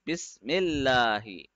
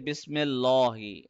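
First: The middle L is thin and light. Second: The middle L is thick and heavy. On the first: The speaker calls it right. "The same way we read bismillahi" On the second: The speaker calls it wrong. "we don't say bismillahi"

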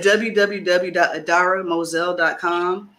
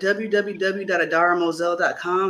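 First: The address is said slowly. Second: The address is said fast.

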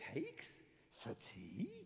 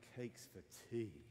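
First: The voice sounds puzzled and questioning. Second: The voice sounds flat and disappointed. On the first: The speaker is asking whether there are cakes for tea. "Or you could go" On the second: The speaker does not want cakes for tea. "Like, you know, why? I don't want cakes for tea"

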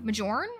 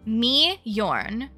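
First: The J is said as a J sound. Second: The J is said as a Y sound. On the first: "Do I pronounce the J?" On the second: "Y sound"

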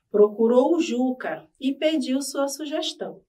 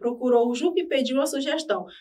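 First: It is read slowly. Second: It is read fast.

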